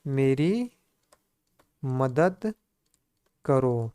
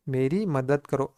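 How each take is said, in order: First: Slow, with a long pause between each word; word-by-word dictation. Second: Said in the usual way. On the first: Shown as a demonstration. Teacher dictating to students, word by word. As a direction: dictate it so they can write along. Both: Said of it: "क्या हो जाएगा प्यारे मित्रों?".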